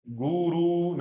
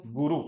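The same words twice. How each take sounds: First: "गुरु" stretched slowly to goo-roo; wrongly lengthened vowels. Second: "गुरु" with two quick short u's; short vowels. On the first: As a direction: drag out both u's in "गुरु". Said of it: "गुरु नहीं". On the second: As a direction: keep both vowels of "गुरु" brief. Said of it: "ये ह्रस्व ऊ है". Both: Shown as a demonstration.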